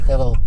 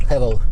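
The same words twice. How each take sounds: Both takes have the same delivery.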